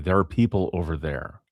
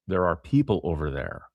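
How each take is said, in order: First: The word 'are' is dropped entirely. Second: The word 'are' is clearly pronounced.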